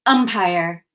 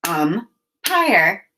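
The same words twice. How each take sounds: First: Said in the usual way. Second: "Umpire" broken into um, pause, pire; chopped syllables. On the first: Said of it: "chop the two syllables". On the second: Shown as a demonstration. Teacher demonstrating the word's two parts, "Umpire" chopped in two. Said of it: "chop the syllables in umpire".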